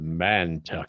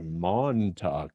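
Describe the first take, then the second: First: The first syllable has an 'a' vowel. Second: The first syllable has an 'o' vowel. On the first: The speaker calls it wrong. "I totally said it wrong" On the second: The speaker calls it right. "I accentuated an A where an O is"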